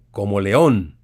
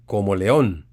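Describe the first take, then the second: First: "como león" said low and clear; como león said slowly. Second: "como león" said again, low and clear; como león repeated. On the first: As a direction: say "como león" as a plain comparison. ("como león" claro y pausado) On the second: ("como león" repetido con claridad) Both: Shown as a demonstration. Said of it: "oye bien".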